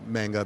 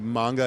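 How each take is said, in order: First: It is said with relaxed English pronunciation. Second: It is said with Japanese-style inflection. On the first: "people who just say manga because, like, it's English" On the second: "the right way to pronounce it uh, if we're trying to add inflection"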